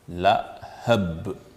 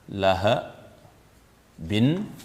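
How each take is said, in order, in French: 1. Le mot se termine brusquement sur la consonne finale. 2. Le mot se termine par un son -in ajouté. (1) "on va dire lahab, phonétiquement" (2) "au lieu de lahabin"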